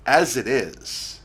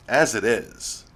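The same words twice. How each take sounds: The two takes are said the same way.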